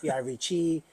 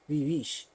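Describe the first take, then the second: First: The name ends with an 'ee' vowel sound. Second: The name ends with a 'sh' sound. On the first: The speaker calls it wrong. "everybody says" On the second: The speaker calls it right. "the way you pronounce it is Vivish. It's French"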